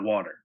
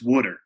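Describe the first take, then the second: First: It is said with a standard accent. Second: It is said with a South Jersey accent.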